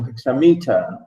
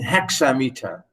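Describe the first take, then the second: First: The stress falls later in the word. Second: The stress is on the first part, hexa. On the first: "some people say" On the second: "It's the way I want to pronounce it, just to make it sure about hexa"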